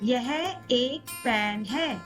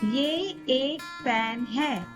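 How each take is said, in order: First: The first word is said in its full formal form. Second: The first word is said in its short casual form. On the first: This is the formal or written style. "In formal or written Hindi, we say" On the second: This is the everyday spoken style. "In everyday spoken Hindi, we say"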